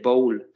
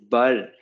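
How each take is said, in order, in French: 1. La voyelle est un son o fermé. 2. La voyelle est un son o ouvert. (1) "tu ne peux pas dire bowl" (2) "c'est bol"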